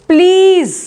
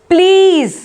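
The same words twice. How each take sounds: The two takes are said the same way.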